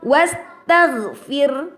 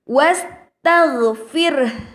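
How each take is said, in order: First: The kh sound is barely audible. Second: The kh sound is clearly audible. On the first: The speaker calls it wrong. "Haknya tidak tampak" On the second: The speaker calls it right. "haknya harus tampak"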